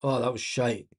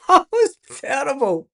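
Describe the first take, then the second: First: Said in the usual way. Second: Higher, laughing through the words. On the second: Real, not acted. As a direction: laugh at how bad it was. Laughs at bad play.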